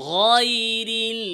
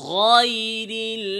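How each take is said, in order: The two takes are said the same way.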